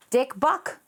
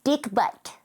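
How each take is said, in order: First: "buck" said with a b-u-k ending, like the animal; the wrong word, as if you misheard yourself; slip of the tongue. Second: "butt" said with a clear t ending; the fixed version, said plainly and firmly; corrected word. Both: Real, not acted. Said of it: "Why did I say dick buck?".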